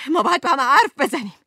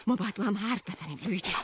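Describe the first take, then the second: First: Louder, fast demand with حرف punched; loud insistence. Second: Softer, quick, pleading under the breath; quiet plea. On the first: Wife loudly demanding her husband talk, fast and forceful. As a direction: pound the word حرف home. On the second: Wife quietly begging Luigi to talk, soft and quick. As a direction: say it low and fast, almost to herself. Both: Acted.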